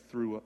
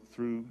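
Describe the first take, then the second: No difference in how they are said.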